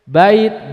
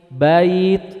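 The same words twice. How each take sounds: First: The vowel glide is broken off abruptly. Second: The vowel glides softly and smoothly into the y. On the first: The speaker calls it wrong. "nggak boleh dibaca" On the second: The speaker calls it right. "itu kaidahnya lin"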